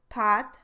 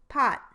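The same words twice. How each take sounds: First: The final t is released without a puff. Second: The final t is held and never released. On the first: "released but not aspirated"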